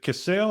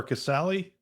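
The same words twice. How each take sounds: First: Casale said as two syllables, kuh-SALE; first pronunciation attempt. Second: Casale said as three syllables, kuh-SAL-ee; alternative pronunciation attempt. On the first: Host checking guest's surname, Casale pronounced kuh-SALE. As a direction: end Casale on "sale", no final ee. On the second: Host offering guest another option, Casale pronounced kuh-SAL-ee. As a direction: give Casale a final "ee", questioning rise. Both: Shown as a demonstration. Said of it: "is it Casale or Casale".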